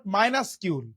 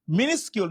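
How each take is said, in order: First: Minuscule wrongly said "minus-kyul"; mispronunciation demo. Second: Minuscule said "mi-nis-kyul"; correct pronunciation. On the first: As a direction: say minuscule slowly, starting with "my". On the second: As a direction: say minuscule with a short first "mi". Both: Shown as a demonstration. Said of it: "not minuscule".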